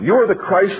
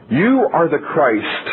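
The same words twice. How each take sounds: First: "are" pushed high and strong in "You are the Christ"; stress on ARE. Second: Drawn-out, weighty "You are the Christ"; slow, measured proclamation. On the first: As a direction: hit the word "are" higher to insist. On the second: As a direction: let each word of "You are the Christ" land slowly with falling close. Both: Shown as a demonstration.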